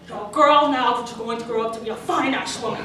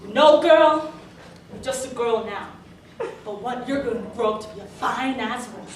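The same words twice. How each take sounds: First: Mock suave Scottish movie star; lightly put-on Connery accent; Sean Connery. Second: Hammed-up creepy older man; lightly put-on voice of a street lech; leering catcaller. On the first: Star with a cigar complimenting a girl, lightly imitated suave voice. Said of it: "someone like Sean Connery". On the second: Grungy middle-aged man hitting on a girl, mock leering catcall. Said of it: "stares me down and says".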